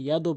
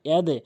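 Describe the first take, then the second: First: The final d releases into a rounded 'o' sound. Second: The final d releases downward into an 'e' sound. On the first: The speaker calls it wrong. "কখনো ইয়াদও বলবেন না" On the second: The speaker calls it right. "ধাক্কা নিচের দিকে দিয়ে পড়তে হবে"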